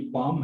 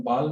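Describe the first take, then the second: First: "बाम" as long "baam", no l; silent l. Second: "बाल" with the l sounded; wrong pronunciation. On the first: Teacher introducing the word, "बाम" with silent l. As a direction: say "बाम" with the l left out. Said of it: "एल साकिन रहेगी". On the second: Teacher warning against misreading, "बाल" with an audible l. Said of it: "बाल नहीं पढ़ा जाता". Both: Shown as a demonstration.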